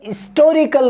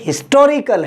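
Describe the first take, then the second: First: The word begins with a vowel sound. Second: The word begins with an h sound. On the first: The speaker calls it wrong. "तो ये हिस्टोरिकल नहीं है" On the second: The speaker calls it right. "ये हिस्टोरिकल है"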